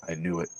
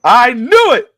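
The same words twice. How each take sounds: First: Low, very soft understatement; hushed vindication. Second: High, loud burst of triumph; loud vindication. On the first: Dad in grandpa's stance eyeing daughter, low and hushed. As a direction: say it under the breath, pitched down. Dad's first restrained reaction. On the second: Dad repeating himself to his daughter, high triumphant shout. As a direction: blurt it out at full volume. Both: Retold or imitated.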